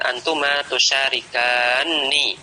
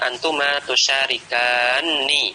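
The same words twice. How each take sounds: First: The n sound is long and doubled. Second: The n sound is long and doubled.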